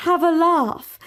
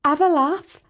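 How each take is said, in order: First: Higher, louder, carefully formal echo; primly echoed. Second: A bright Scouse coax; cheery Scouse. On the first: Princess echoing Sally's words, prim. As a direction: repeat the phrase like a foreign idiom. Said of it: "as you say". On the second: Sally urging the princess to join, cheery Scouse. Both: A narrator's reading.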